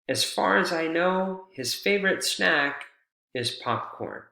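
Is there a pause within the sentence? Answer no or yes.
yes. There is a pause inside the sentence. "you could create a pause here"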